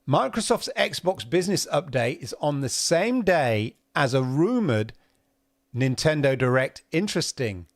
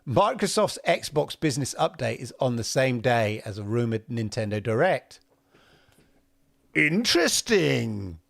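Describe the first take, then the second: First: It runs on into 'interesting' without a stop. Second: It stops fully before 'interesting'.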